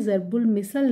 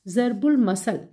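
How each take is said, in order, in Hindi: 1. 'm' के बाद का स्वर 'i' की ध्वनि है। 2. 'm' के बाद का स्वर 'a' की ध्वनि है। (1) "ज़रबुल मिसल नहीं होता" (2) "मसल मीम के ऊपर भी ज़बर है और से के ऊपर भी ज़बर है"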